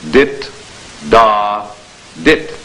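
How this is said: Each sound is separated by pauses.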